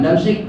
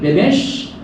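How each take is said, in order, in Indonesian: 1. Nama itu diawali dengan vokal 'a': Damsyik. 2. Nama itu diawali dengan vokal 'i': Dimashq. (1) "bukan Damsyik"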